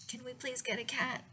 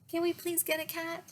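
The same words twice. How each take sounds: First: Said in the usual way. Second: Put-on high, pleading kid voice; begging child. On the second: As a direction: beg like an eager child.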